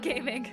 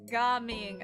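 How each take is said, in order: First: It sounds like the English word 'gaming'. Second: It does not sound like English 'gaming'. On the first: The speaker calls it wrong. "Not gaming. The child is not named Gaming" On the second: The speaker calls it right. "I have learned that it is gaming, I'm pretty sure"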